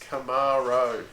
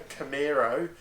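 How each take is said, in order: First: The middle vowel is pronounced without an E. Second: The middle vowel is pronounced like an E. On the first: The speaker calls it right. "it's Camaro, No E" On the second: The speaker calls it wrong. "It's not a Camaro, There's no fucking E in it"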